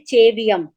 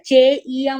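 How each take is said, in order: First: The middle has a v sound. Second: The middle has no v sound. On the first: The speaker calls it wrong. "और सब जने क्या बोलते हैं?" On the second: The speaker calls it right. "चेइयम होता है, ऐसे पे लिखा हुआ है ना"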